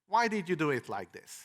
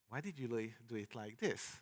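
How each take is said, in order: First: It sounds harsh and accusing. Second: It sounds softer and less accusing. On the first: The reviewer sounds like they are blaming the author. The speaker calls it wrong. "that's how you read it, how I uh, said it the first time" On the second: The reviewer sounds curious rather than blaming. The speaker calls it right. "I could use a different tone"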